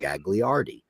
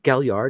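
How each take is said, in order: First: The name is said with an Americanized pronunciation. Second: The name is said with an Italian pronunciation. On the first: This is how others commonly mispronounced it. The speaker calls it wrong. "People used to call him" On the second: This is the name's proper form. The speaker calls it right. "Isn't it"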